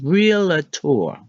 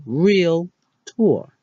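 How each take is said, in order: First: "realtor" said real-uh-tor with an extra syllable; "realtor" with a vowel slipped in after real; the familiar wrong three-syllable version; common mispronunciation. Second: "realtor" said real-tor in two syllables; "realtor" with no extra uh in the middle; correct pronunciation. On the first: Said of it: "What we've been saying is". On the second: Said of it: "How to actually say it is". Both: Shown as a demonstration.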